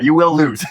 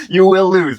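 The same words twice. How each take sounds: First: Said in the usual way. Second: Laughing through the repeated line. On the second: Retold or imitated. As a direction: crack up as you repeat it. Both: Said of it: "He's like".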